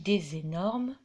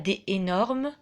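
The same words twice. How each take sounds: First: The S sound links des to énormes. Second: No S sound links des to énormes. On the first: The speaker calls it right. "je dis des énormes crocodiles" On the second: The speaker calls it wrong. "Je ne dis pas des énormes"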